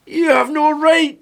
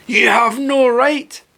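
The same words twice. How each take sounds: First: Much higher, slower mock growl; mock growling Greta, higher. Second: Slow, higher growled mock of the girl; mock growling Greta. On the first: Mocking Greta's speech again, higher whiny growl. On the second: Mocking Greta's speech to viewers, slow growl. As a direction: growl it out slowly like a cross dog. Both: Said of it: "she's growling at people".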